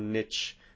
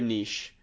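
First: Niche is said with an American pronunciation. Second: Niche is said with a non-American pronunciation. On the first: This is how the listeners say it. "as you fine folks would say" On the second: This is how the speaker says it. "I say niche"

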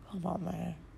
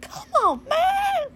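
First: It is said in a lower-pitched voice. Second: It is said in a high-pitched voice.

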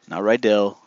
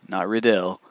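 Both takes have the same delivery.

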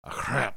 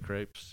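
First: The word is said with a French-like pronunciation. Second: The word is said with a plain American pronunciation. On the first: This copies someone else's way of saying it. "That's me trying to pronounce it like her" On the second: This is the speaker's own way of saying it. "I say crepes"

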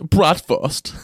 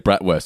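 First: It is said with a German accent. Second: It is said with a plain English accent. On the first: The speaker calls it right. "It's bratwurst" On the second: The speaker calls it wrong. "You can't just say bratwurst"

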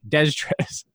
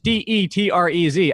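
First: The name is said with an extra consonant. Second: The name is said without an extra consonant. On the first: The speaker calls it wrong. "I wanted to put like an extra Z in there" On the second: The speaker calls it right. "That Detrez is correct"

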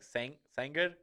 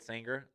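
First: The name is said with Spanish pronunciation. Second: The name is said with English pronunciation. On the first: "It's like Sanger or something like that" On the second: "you're not going to hear a Mexican call it Sanger"

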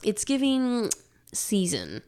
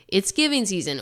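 First: There is a pause after 'giving'. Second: The phrase runs on without a break. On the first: The slang 'it's giving', describing the season. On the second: It is the season for giving. "depending on how you read this, tells me like how old you are"

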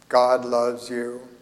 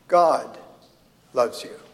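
First: It is said flat and mechanical, like a robot. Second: It is said with natural, varied emphasis.

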